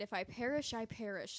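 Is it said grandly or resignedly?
grandly. It sounds like a grand speech.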